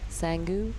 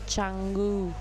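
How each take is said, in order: First: The name begins with an s sound. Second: The name begins with a ch sound. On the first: The speaker calls it wrong. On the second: The speaker calls it right.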